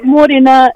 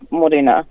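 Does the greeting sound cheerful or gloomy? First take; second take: cheerful; gloomy. First: It is said in a bright, cheerful tone. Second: It is said in a flat, gloomy tone. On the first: The morning is a good one. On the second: The morning is not a good one.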